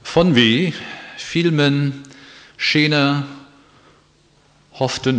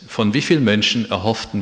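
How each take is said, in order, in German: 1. Die Wörter sind an ungewöhnlichen Stellen getrennt und betont. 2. Die Wörter sind so gruppiert und betont, wie man es üblicherweise tut. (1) "Ich habe nur die Wortverbindungen verändert und die Betonung" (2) "Das heißt"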